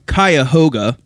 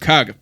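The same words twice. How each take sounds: First: The word is said with all its syllables. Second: The word is said with syllables dropped. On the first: "locals shorten Cuyahoga" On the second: "to Cuyahoga"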